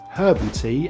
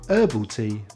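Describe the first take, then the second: First: The H in herbal is sounded. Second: The H in herbal is silent. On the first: "Brits drink herbal tea" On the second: "Americans prefer herbal tea"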